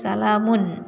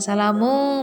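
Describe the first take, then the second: First: The word ends with a clear final n sound. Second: The word ends without the final n sound. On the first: The speaker calls it right. "tapi salamun" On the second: The speaker calls it wrong. "bukan salamu"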